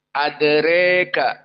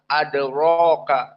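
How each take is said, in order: First: The final vowel is fully bent toward e. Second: The final vowel is a plain open a. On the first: "dalam keadaan al-imalah al-kubro" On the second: "jumhur dibaca fathah"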